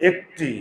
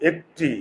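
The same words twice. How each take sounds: No difference in how they are said.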